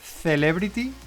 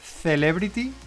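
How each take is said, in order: First: It is said with a Spanish pronunciation. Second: It is said with a Spanish pronunciation.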